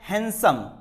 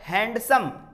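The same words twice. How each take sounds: First: The d sound is left silent. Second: The d sound is clearly pronounced. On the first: The speaker calls it right. "डी silent होता है" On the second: The speaker calls it wrong. "No"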